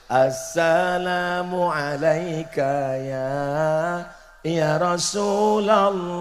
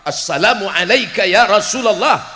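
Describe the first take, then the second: First: It is said softly, in an Indonesian manner. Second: It is said in an Arab manner.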